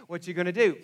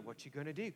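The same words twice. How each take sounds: First: Louder, pressing worry; the fear is taking over now; panicked inner voice. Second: Hushed, anxious muttering to himself; worried inner voice. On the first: Anxious thoughts growing louder. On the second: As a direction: let the worry creep in low and soft. Anxious thoughts on the drive home. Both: Retold or imitated.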